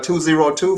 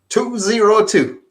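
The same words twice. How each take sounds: First: The number is read at a quick pace. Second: The number is read slowly and clearly.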